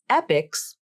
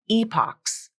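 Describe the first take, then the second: First: It sounds exactly like the word 'epics'. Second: It does not sound like the word 'epics'. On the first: "just like the word epics" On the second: "Or it's pronounced as epochs"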